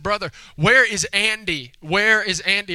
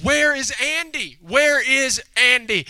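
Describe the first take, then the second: First: Slightly higher, imitated child's question; a hint of a questioning child; lightly voiced little girl. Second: Put-on higher, slow, drawn-out child's demand; insistent little girl. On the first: Little girl asks her brother about Andy, lightly voiced. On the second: Little girl presses her brother about Andy, insistent and drawn out. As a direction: imitate a child pressing for an answer.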